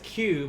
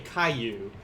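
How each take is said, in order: First: The word is said as one syllable. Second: The word is split into two syllables. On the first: The speaker calls it right. "Q by itself is one in the Japanese language" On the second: The speaker calls it wrong. "they may want to say Caillou, ... that's actually two syllables"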